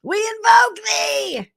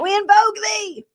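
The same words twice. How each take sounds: First: Much higher, slow shouted spell; shouted invocation. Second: Much higher, solemn spell call; mock witch invocation. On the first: Retold or imitated. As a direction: bellow the spell slowly like a witch. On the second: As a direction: intone it like a dramatic witch. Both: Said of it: "she was like this".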